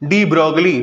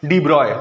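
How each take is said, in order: First: The surname ends with a 'glee' sound. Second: The surname ends with an 'oy' sound. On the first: This is how it is commonly said in India. The speaker calls it wrong. "हम लोग India में इनको क्या बोल देते हैं" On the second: This is the name's actual pronunciation. The speaker calls it right. "इनका नाम का एक्चुअल प्रोनाउंसिएशन है"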